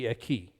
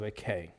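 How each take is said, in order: First: "Eki" ending in an ee sound; modern Koine pronunciation. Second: "a K" as eh-KAY, ending in ay; non-modern pronunciation. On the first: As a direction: say "Eki" as eh-KEE. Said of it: "modern or Koine pronunciation". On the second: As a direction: say "a K" as one Greek word, eh-KAY. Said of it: "instead of a K". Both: Shown as a demonstration.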